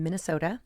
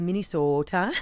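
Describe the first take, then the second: First: It is said in a general American accent. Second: It is said in a strong Minnesotan accent.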